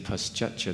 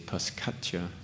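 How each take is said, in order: First: The middle consonant is a 'ch' sound. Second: The middle consonant is a 'k' sound. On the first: The speaker calls it right. "it's pronounced as ch. So instead of saying paschatcha" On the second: The speaker calls it wrong. "they say paskatcha"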